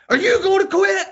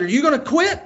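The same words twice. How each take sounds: First: Loud, very high mimicked outrage; mad kid. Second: High-pitched retold challenge; challenging. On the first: Son throwing dad's question back mid-plank, mad. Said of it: "he's so mad". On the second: Dad to son struggling in a plank, challenging. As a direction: needle him with a raised-pitch question.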